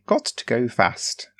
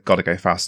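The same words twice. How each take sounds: First: Every word is carefully and separately enunciated. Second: The words run together quickly and casually. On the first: The speaker calls it wrong. "I enunciate every letter" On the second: The speaker calls it right. "in the style of the character"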